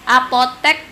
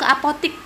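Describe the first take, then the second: First: The last syllable is said with an e sound. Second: The last syllable is said with an i sound. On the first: This is the standard form. The speaker calls it right. "kosakata baku" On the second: This is the everyday non-standard form. The speaker calls it wrong. "biasanya kita sebut mau ke apotik"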